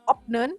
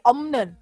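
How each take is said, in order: First: A p sound comes before the final syllable. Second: An m sound comes before the final syllable. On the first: The speaker calls it wrong. "itu bacanya bukan opnen" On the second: The speaker calls it right. "tapi omnen"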